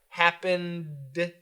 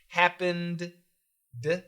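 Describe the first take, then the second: First: The two D sounds merge into one. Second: Both D sounds are said separately. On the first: "we put those D's together" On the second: "perfect pronunciation"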